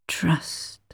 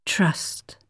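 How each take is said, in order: First: Even softer unvoiced whisper, dying away; barely-there echo; fainter whisper. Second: Breathy, soft unvoiced whisper. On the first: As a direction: let "Trust" fade like an echo. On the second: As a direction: breathe the word like a fading thought. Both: A narrator's reading. Echoing word in her mind.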